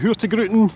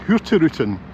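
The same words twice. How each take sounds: First: The G is said as a hard G. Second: The G is said softly, not hard. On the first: The speaker calls it wrong. "that hard G as I do" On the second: The speaker calls it right. "it's pronounced Hurtigruten"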